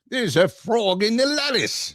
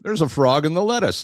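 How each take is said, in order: First: It is said in an attempted Australian accent. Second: It is said in the speaker's normal accent.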